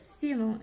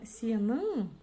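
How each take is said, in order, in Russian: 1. Ударение на первом слоге. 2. Ударение на последнем слоге. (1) "ударение перескакивает на слог вперед" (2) "такое очень и очень часто везде практикуется"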